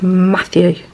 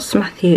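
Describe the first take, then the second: First: The name starts directly with an M sound. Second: The name starts with an added S sound. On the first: The name's actual form. The speaker calls it right. "it's Matthew" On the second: A young child's mispronunciation of the name. The speaker calls it wrong. "Smatthew with a S"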